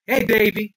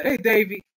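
First: Lightly voiced street guy. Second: Said in the usual way. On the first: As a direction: greet him with a hint of street swagger. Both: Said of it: "gonna give Kenny a street voice".

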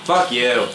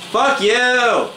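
First: Said in the usual way. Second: Sharp, higher and louder curse; angry yell. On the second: Real, not acted. Gamer yelling at his killer, real angry shout. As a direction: yell it at the guy who just killed you.

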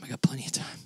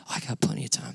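First: Whispered, no voice at all. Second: Said in the usual way. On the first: Shown as a demonstration. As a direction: say it under your breath as a quiet aside. Repeats the line whispered.

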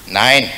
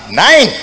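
First: Said in the usual way. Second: A sharper, louder no; louder and firmer on the second refusal. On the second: Acted. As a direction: snap the no back at him. Girl refuses a second time.

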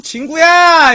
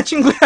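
First: Loud high call, voice up; calling out like to a dog. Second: Said in the usual way. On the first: Shown as a demonstration. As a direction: shout the name across the yard. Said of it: "강아지 개새끼 부르는 것 같고". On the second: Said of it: "노진구 아니야".

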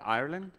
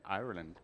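First: Said in the usual way. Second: "Ireland." in a lower, imitated Irish accent; imitating an Irish accent on "Ireland."; attempted Irish accent. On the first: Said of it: "why do we say it like that?". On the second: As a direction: try "Ireland." with an Irish lilt, falling at the end. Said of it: "almost get that accent".

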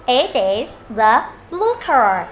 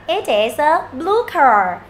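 First: Word by word, drawn-out blue car; slow model reading. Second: "It is a" joined a little more quickly; a slightly brisker run through the sentence; quicker reading. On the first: Teacher modelling a sentence, slow and careful. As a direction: read it out slowly for learners to copy. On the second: Teacher speeding up the model, a touch quicker. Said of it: "Đọc nhanh". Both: Shown as a demonstration.

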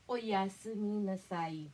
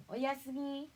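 First: Sweeter goodnight. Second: Said in the usual way. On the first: Shown as a demonstration. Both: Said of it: "Para mas malambing".

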